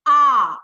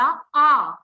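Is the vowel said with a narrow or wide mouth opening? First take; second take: wide; narrow. First: The vowel is said with the mouth wide open. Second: The vowel is said with the mouth barely open. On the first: The speaker calls it right. "हम इतना बड़ा मुख कैसे खोलें" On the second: The speaker calls it wrong. "मुख इतना सा खोला, छोटा सा, तो आपका उच्चारण गलत है"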